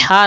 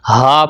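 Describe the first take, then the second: First: ہا with a tight pharyngeal h; ہا as a constricted Arabic h; wrong mid-throat h. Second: ہا with a light, open h; ہا as a plain unconstricted h; lower-throat h. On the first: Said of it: "ہا نہیں پڑھنا". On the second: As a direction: breathe ہا from the bottom of the throat. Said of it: "حلق کے نیچے والے حصے سے". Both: Shown as a demonstration.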